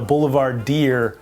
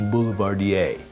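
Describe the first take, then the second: First: The name ends with a sound like 'deer'. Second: The name ends with a sound like 'dee-ay'. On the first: The speaker calls it wrong. "or so I thought" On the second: The speaker calls it right. "it's actually pronounced"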